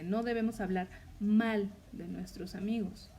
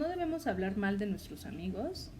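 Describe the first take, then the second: First: The word mal carries the emphasis. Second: The word hablar carries the emphasis. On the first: Speaking well of them is required. "Ahí el énfasis es en la palabra mal" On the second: Harming them in deeds is allowed. "hacemos énfasis en la palabra hablar"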